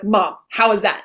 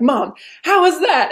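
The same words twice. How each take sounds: First: Said in the usual way. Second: Higher, slow, eager mom how was that; eager asking. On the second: Retold or imitated. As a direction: draw it out eagerly, voice up. Asking mom after talent.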